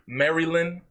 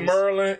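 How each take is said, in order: First: The name is said with three full syllables. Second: The name is squeezed into two short syllables. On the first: This is the standard way to say it. "I know it's Marilyn" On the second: This is how the locals say it. "The same way we say Merlin"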